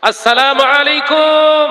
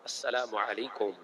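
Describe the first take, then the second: First: It is said louder than normal. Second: It is said at normal loudness.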